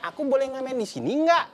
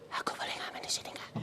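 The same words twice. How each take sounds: First: It is said very loudly. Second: It is said very softly.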